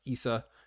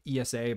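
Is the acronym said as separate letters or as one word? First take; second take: one word; letters. First: It is said as a single word. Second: Each letter is said separately. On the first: "but it's pronounced ESA, kind of like NASA" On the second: "which is ESA"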